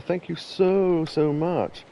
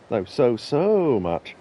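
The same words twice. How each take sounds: First: Said in the usual way. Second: Both "so" drawn long and slow; stretched out so. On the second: Shown as a demonstration. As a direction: draw out each "so" slowly.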